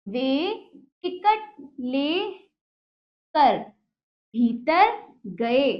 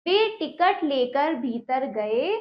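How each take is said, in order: First: Slow, syllable by syllable reading; slow dictation reading; slow word by word. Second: Said in the usual way. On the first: Shown as a demonstration. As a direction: read it out piece by piece for children. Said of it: "teacher reads slowly, word by word". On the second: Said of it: "same sentence read whole".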